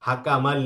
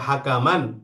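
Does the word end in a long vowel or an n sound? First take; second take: n sound; n sound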